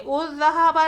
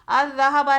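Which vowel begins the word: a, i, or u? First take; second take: u; a. First: The word begins with a u vowel. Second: The word begins with an a vowel. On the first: "उज़्ज़हाबा नहीं" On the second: "अज़्ज़हाबा नहीं"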